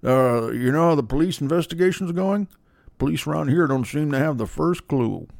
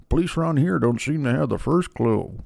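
First: A hint of Jamie Gumb, murmured; Jamie Gumb impression. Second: Lightly voiced creepy killer, softer; a hint of Jamie Gumb, murmured; Jamie Gumb impression. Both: A touch of the killer talking to Clarice. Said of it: "I'm like Jamie Gumb".

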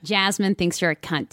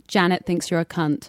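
First: As Jasmine. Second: As Janet. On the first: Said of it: "and then as Jasmine". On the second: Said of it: "drop the C-bomb as Janet". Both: Shown as a demonstration.

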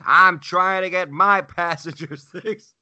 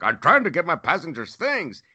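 First: High, slow, louder parroting; mocking echo. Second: High-pitched imitation of an indignant worker; mimicked protest. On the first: Traveler throwing the worker's words back, mocking. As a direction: parrot it back slowly to mock him. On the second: Wheelchair pusher squaring off to traveler, protesting. Retold retort of airport worker.

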